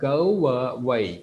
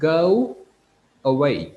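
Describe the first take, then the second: First: The words are joined with an inserted w sound. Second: The two words are said separately, without linking. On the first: "அங்க go way என்று வரும்" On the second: "இது ரெண்டும் ரெண்டு சொல்"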